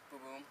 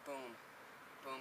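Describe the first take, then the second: First: The two booms come quickly, close together. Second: The two booms come slowly, spread apart. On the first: Both tires land almost at once. The speaker calls it right. "it's just like a quick thing" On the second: The tires land one after the other. The speaker calls it wrong. "not like"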